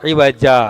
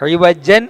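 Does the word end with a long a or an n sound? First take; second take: long a; n sound. First: The word ends with a long a sound. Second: The word ends with an n sound. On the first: The reader stops on the word. "അവിടെ നമ്മളെങ്ങനെ നിർത്തിയത്?" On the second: The word is read in running speech. "ഇവജൻ എന്നായിരുന്നു"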